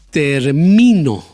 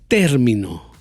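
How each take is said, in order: First: The stress is on the second syllable. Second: The stress is on the first syllable. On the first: "Ahí puse el golpe de voz en la segunda sílaba" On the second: "Ahí puse el golpe de voz en la primera sílaba"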